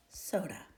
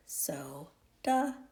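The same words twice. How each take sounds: First: Said in the usual way. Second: "soda" split into SO, then DA; sounded out syllable by syllable. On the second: Shown as a demonstration. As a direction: say "soda" slowly in two separate syllables, SO ... DA. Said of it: "that's how we get the word".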